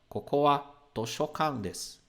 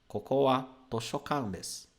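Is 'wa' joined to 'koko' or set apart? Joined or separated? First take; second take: joined; joined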